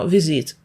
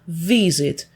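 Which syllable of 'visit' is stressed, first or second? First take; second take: second; first. First: The stress is on the second syllable. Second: The stress is on the first syllable. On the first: The speaker calls it wrong. "Ми ж не говоримо visit" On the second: The speaker calls it right. "ми говоримо visit"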